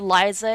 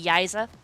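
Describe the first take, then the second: First: The name begins with an L sound. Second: The name begins with a Y sound. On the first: "our oldest sister's name started with an L" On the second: "she used to pronounce it with a Y instead"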